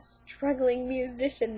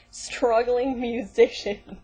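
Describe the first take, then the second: First: Said in the usual way. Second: Slow, louder, sarcastic drawl; mock the phrase with heavy sarcasm; scornfully stretched out; mocking repeat.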